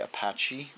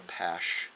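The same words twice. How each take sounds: First: The middle consonant is a ch sound. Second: The middle consonant is an sh sound. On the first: The speaker calls it wrong. "A lot of people say Apache" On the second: The speaker calls it right. "it's like with a S H"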